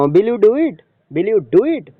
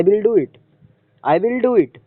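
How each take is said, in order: First: "it" lifted as a question. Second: "do" raised, then a fall on "it"; falling intonation. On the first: Teacher turns statement into question, rising confirmation tone. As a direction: ask "Will you do it" with the end swinging up. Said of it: "question के tone में". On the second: Teacher shows a normal finished statement, falling at the end. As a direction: close "I will do it" with a clear drop. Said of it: "fall होता है". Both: Shown as a demonstration.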